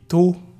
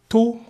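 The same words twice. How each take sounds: First: The word is said on a low tone. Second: The word is said on a high tone. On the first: The word means to make suffer. "un ton bas qui signifie faire souffrir" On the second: The word means to blow. "c'est un ton haut qui signifie souffler"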